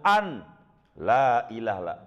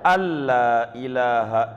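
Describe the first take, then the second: First: A clear n is kept before the l. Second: The n merges into a doubled l sound. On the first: The speaker calls it wrong. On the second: The speaker calls it right.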